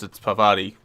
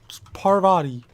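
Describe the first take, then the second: First: A Northeastern accent with the R dropped. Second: The R in Parvati is pronounced.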